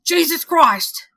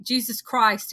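First: Slow, loud, bitter hard-boiled detective. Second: Said in the usual way. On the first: Acted. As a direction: growl it out like a weary cop. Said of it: "There's my detective voice for you guys". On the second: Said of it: "he said bitterly".

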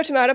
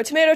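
First: Tomato said "tuh-MAH-toh"; broad-A tomato. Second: Tomato said "tuh-MAY-toh"; long-A tomato. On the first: Teacher compares two pronunciations, tomato with broad A. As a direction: say "tomato" with an AH in the middle. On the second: Teacher compares two pronunciations, Tomato with long A. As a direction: say "Tomato" with an AY in the middle. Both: Retold or imitated. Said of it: "about different words".

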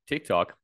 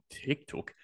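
First: Loud. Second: Breathy whispered TikTok, no voice; whispering. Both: Pretend. Playful repeated platform name.

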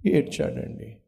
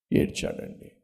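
First: Said in the usual way. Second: Breathy whisper of the word; soft whispered echo. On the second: Shown as a demonstration. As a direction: drop to a hushed whisper. Repeats that Ezra wept.

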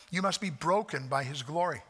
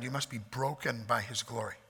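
First: Must leaned on; firm restatement with must stressed. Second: Soft lower take; quiet solemn version; softer, lower. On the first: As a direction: press the word must. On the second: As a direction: say it softly, sinking. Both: Shown as a demonstration.

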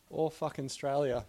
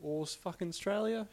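First: "All fucking Australia" stated firmly, stress on "All", pitch falling at the end; "All fucking Australia" said as a plain fact, falling tune; falling statement. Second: "All s-, fucking Australia?" asked with a high rising tune on "Australia"; unsure rising "Australia?" checking the wording; questioning rise. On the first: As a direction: try the phrase "All fucking Australia" out as a flat settled statement. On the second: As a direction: test "fucking Australia?" as a doubtful question, pitched up. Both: Shown as a demonstration. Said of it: "How would you put it?".

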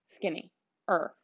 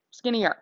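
First: "skinny-er" split into two parts, skinny then -er, softer; stumbled word. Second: "Skinnier" said smoothly as one word, SKIN-ee-er; corrected word. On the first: Announcing her weight loss to listeners, "skinny-er" broken into skinny plus -er. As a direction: say "skinny-er" haltingly as two pieces. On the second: Correcting herself to podcast listeners, "Skinnier" said smoothly in one word. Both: Real, not acted.

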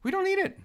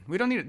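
First: High, emphatic "we don't NEED it"; insisting "we don't need it", "need" leaped up high. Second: Said in the usual way. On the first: Real, not acted. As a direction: hit "need" hard and high. Insists playoff round is unneeded.

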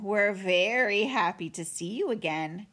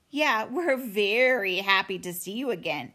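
First: Drip sarcasm on every word; mock-pleased bear sister; sarcastic. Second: Lightly voiced copycat sibling; a hint of a sarcastic kid brother; echoing little brother. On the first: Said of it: "Her voice dripped with sarcasm". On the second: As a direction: parrot your sister's sarcasm a bit more eagerly. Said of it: "echoed the little brother". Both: A narrator's reading.

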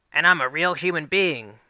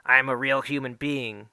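First: Higher, louder meme queen line; hammed-up Natch Queen quote. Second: Lightly voiced meme queen line; a hint of the Natch Queen's deadpan. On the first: Boy showing off to Miss Shelley, hammed-up Natch Queen voice. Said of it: "I say in the Natch Queen's voice". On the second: Boy quoting the gif at Chad's locker, lightly voiced. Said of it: "in my Natch Queen voice say".

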